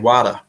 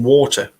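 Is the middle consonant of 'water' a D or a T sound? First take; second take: D; T. First: The middle consonant sounds like a D. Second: The middle consonant is a clear T sound.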